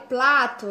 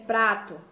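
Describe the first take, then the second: First: The word is said with an L sound. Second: The word is said with an R sound. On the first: A young child still says it this way. "pode ser que a criança ainda fale plato" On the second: This is the adult form of the word. "em vez de prato"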